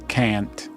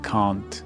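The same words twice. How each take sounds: First: It is said with an American accent. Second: It is said with a British accent. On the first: "when you say can't" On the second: "I say can't"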